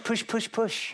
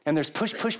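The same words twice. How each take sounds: First: Push, push, push said higher, each push hammered. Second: Said in the usual way. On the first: Retold or imitated. Preacher mimicking parents who push kids, pressing hard.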